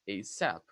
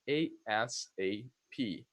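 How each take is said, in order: First: It is said as a single word. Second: Each letter is said separately. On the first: "you pronounce it as a word" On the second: "you pronounce it letter by letter"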